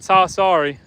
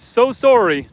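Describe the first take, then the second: First: "so sorry" with opened vowels, sow SAR-ee; wrong pronunciation. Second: "so sorry" with round o's, soh SORE-ee; corrective pronunciation. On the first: Reading a viewer's correction aloud, "so sorry" as sah SAR-ee. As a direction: show "so sorry" drawn out as sah sah-ree. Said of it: "Not so sorry". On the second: Reading Matthew's correction aloud, "so sorry" as soh SORE-ee. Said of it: "not sorry. Not so sorry". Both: Retold or imitated.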